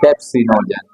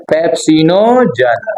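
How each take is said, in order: First: Said in the usual way. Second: pepsinogen drawn out slowly, every part sounded; full term stressed. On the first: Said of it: "भाई लोग pepsin बोल लेते हैं". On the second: Shown as a demonstration. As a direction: stretch pepsinogen so the ending is not lost. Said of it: "भाई लोग pepsin बोल लेते हैं, देखो कि गलत है". (पेप्सिनोजन को धीरे, खींचकर पूरा बोलना)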